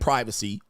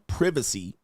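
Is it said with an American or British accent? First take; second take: American; British. First: It is said with an American accent. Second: It is said with a British accent.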